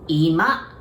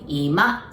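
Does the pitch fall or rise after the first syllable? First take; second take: rises; rises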